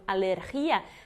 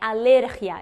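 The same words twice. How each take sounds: First: The stress falls on the syllable with i. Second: The stress falls before the syllable with i. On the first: The speaker calls it wrong. "teria o acento no i, como economia" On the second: The speaker calls it right. "Não tem o acento, então é alergia"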